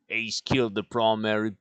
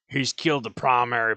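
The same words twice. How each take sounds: First: It is said in the dwarf character's voice. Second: It is said in another character voice.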